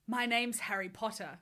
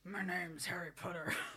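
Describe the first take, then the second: First: It is read in a plain voice. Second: It is read in a low grumbling voice.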